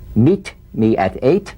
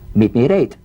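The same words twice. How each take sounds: First: The T in at is a crisp T. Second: The T in at is a soft D. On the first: The speaker calls it wrong. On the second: The speaker calls it right.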